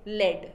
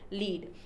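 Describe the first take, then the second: First: The word has a short 'e' vowel. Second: The word has a long 'ee' vowel. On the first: It means a metallic element. "LED, that is a metallic element" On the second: It means to guide or give direction. "when you are trying to give a direction or trying to follow someone"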